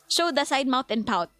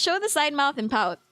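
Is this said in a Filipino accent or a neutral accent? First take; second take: Filipino; neutral. First: It is said with a Filipino accent. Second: It is said without a Filipino accent.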